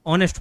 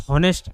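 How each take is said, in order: First: ऑनेस्ट said with no h, starting on the o; silent h. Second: हॉनेस्ट said with a voiced h at the start; teacher shows the wrong way, हॉनेस्ट with h; wrong h-sound. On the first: Teacher to class, correct ऑनेस्ट with a silent h. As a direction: start ऑनेस्ट straight on the vowel. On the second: Teacher to class, showing the wrong हॉनेस्ट with an h. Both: Shown as a demonstration. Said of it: "ऑनेस्ट होता है ना कि हॉनेस्ट".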